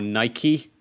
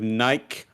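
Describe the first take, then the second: First: Nike is said in the American pronunciation. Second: Nike is said in a non-American pronunciation.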